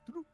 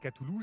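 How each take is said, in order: First: The name is said quickly and run together. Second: The name is said slowly and carefully.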